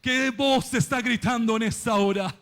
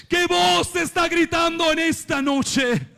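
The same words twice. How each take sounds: First: Said in the usual way. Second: Higher, forceful preacher's question; impassioned, lifted cry; raised challenge. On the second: Real, not acted. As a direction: throw the question out to the congregation.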